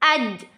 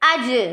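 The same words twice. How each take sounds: First: The final consonant stops abruptly without a bounce. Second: The final consonant ends with an echoing bounce. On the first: "कलकला के बगैर पढ़ रहे हैं" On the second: "पहले शिद्दत फिर कलकला, इसको मिला के पढ़ेंगे"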